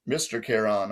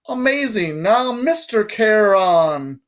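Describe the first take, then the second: First: Low, soft, dutiful echo; meek repetition. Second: High, drawn-out patronizing British voice; strange British accent. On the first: Boy repeats the guard's title as told, meekly. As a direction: repeat it quietly and obediently. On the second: Guard makes boy repeat his title, strange British accent. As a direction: stretch the title grandly in high British tones. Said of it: "said in a strange accent, British maybe". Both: A narrator's reading.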